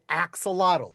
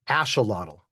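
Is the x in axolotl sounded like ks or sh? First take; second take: ks; sh. First: The x is sounded like ks. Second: The x is sounded like sh. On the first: "because there's the X there. Look, it's like axe" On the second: "something like ash uh lot"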